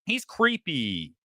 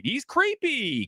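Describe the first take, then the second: First: "He's creepy" said slowly and low. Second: Creepy stretched slowly, much higher; drawn-out creepy. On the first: Repeating that the director is creepy, slow and low. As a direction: let "He's creepy" sink, slow and flat in pitch. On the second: Calling the director creepy, stretched out high and slow. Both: Shown as a demonstration.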